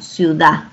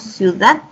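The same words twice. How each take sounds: First: The final d is dropped. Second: The final d is clearly pronounced. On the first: "se están omitiendo unas letras" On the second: "no decimos ciudad"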